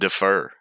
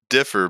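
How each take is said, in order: First: The stress is on the second syllable. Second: The stress is on the first syllable. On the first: "but you pronounce it defer" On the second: "you said the way people think about it might differ"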